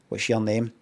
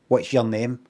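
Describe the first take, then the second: First: 'Your' is reduced, sounding like 'yeah'. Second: 'Your' is reduced, sounding like 'yeah'.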